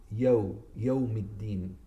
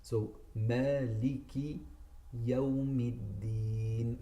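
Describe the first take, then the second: First: "Yawmiddin" with an English long yo; wrong yo. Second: "Maliki Yawmiddin" very slow, short yaw; correct slow. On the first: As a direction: say "yo" like English, the mistake. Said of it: "but they would say". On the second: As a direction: recite slowly with a short yaw. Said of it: "it's yo". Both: Shown as a demonstration.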